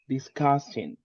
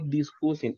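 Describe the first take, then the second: First: The stressed vowel is a short 'uh' sound. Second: The stressed vowel is a Spanish-like 'oo' sound. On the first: The speaker calls it right. "it's a combination between A and U, like A" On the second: The speaker calls it wrong. "no discussing, uh-uh, not like that"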